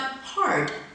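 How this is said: The r sound is pronounced after the vowel. "in General American"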